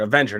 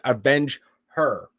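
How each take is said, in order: First: It is said as a single word. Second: It is said as two separate words. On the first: It is a name meaning someone who takes revenge. The speaker calls it right. "like one word" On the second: It means taking revenge for a woman. The speaker calls it wrong. "not avenge her"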